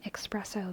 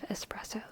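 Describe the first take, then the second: First: The word is said with an extra sound added. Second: The word is said with no extra sound. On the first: The speaker calls it wrong. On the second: The speaker calls it right.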